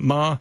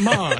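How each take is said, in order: First: The pitch stays high and level throughout. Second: The pitch falls sharply from high to low. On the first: The word means mother. "it means mother" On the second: The word means to scold. "it means scold"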